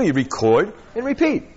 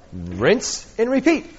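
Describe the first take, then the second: First: Said in the usual way. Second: Slow, drawn-out rinse and repeat; mock ad slogan, slow; playful slogan. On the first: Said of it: "That's all you do". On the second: Real, not acted. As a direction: stretch it like a shampoo ad line. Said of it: "It's like the shampoo bottle".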